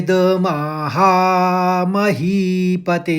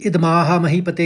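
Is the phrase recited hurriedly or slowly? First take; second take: slowly; hurriedly. First: The phrase is recited slowly, taking time over it. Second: The phrase is recited quickly, all in one rush. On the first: The speaker calls it right. "थोड़ा सा time लीजिए" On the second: The speaker calls it wrong. "हम एकदम ऐसे नहीं पढ़ेंगे"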